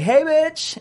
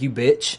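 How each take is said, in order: First: It sounds warm and affectionate. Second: It sounds hostile and insulting.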